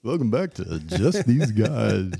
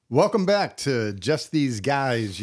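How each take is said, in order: First: Slow crooning host intro; smooth it out like a lounge singer; lounge lizard voice. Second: Slow smooth lounge-singer intro; lounge lizard voice. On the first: Shown as a demonstration. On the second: Acted. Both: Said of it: "why do I adopt a lounge suit lizard voice".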